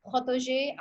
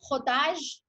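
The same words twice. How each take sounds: First: Frottage said as fro-to-ZHAY; unsure pronunciation. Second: Frottage said slowly as fro-TAHZH; attempted French pronunciation. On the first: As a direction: end frottage on an added "ay" sound. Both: Shown as a demonstration. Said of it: "I don't know how to pronounce it".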